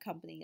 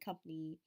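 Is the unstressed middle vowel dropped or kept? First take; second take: kept; dropped. First: The middle unstressed vowel is pronounced. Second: The middle unstressed vowel is left out.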